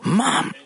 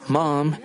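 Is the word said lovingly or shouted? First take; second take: shouted; lovingly. First: It is shouted loudly and harshly. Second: It is said in a soft, loving tone.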